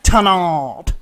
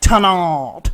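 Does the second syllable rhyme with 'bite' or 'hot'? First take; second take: hot; hot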